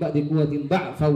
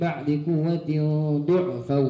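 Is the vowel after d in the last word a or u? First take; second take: a; u. First: The last word has an a vowel after d. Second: The last word has a u vowel after d.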